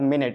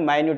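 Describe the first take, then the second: First: The word sounds like 'minnit', with a short i. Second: The word sounds like 'my-newt', with a long i. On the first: It refers to a unit of time. "మినిట్ అంటే which indicates time" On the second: It means something very small. "మైన్యూట్ అంటే small insect ఆర్ small any small thing"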